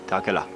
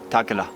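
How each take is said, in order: First: The phrase is run together with sounds dropped. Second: The same.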